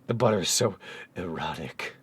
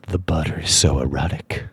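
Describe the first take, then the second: First: It is read in a plain voice. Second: It is read in a close, seductive voice.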